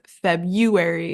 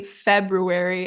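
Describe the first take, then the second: First: February said as FEB-you-air-ee, first R dropped; common mispronunciation. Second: February with the R, FEB-roo-air-ee; correct February. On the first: Teacher showing the slip to avoid, February as FEB-you-air-ee. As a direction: swap the R in February for a Y sound. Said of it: "instead of". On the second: Teacher setting the target against the common slip, careful February with R. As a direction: sound the R after B in February. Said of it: "let's try to say February instead of". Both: Shown as a demonstration.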